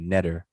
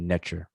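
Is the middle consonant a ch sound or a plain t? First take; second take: plain t; ch. First: The middle consonant is a plain t sound. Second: The middle consonant is a ch sound. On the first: The speaker calls it wrong. "with the regular T" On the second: The speaker calls it right. "the ch sound instead of the T"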